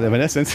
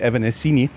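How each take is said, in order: First: The name ends with an "-ence" sound. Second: The name ends with an "-ini" sound. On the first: The speaker calls it right. "but it's called Evanescence" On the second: The speaker calls it wrong. "some Germans would still say Evanescini"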